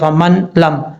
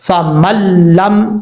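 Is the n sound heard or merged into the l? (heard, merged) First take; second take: heard; merged. First: The n is clearly pronounced before the l. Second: The n is dropped and merged into a doubled l. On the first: The speaker calls it wrong. "ऐसा नहीं पढ़ा जाएगा फमन लम, ये गलत है" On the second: The speaker calls it right. "मीम को डायरेक्ट लाम से कनेक्ट करेंगे, बीच में नून को छोड़ देंगे"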